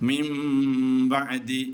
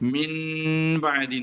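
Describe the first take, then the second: First: The nasal before 'b' becomes a nasalized 'm'. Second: The nasal before 'b' is a plain 'n'. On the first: The speaker calls it right. "മീമാക്കി മറിക്കണം, നൂനാക്കി വെക്കരുത്" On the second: The speaker calls it wrong. "എന്നല്ല"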